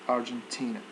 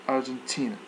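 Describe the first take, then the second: Both takes have the same delivery.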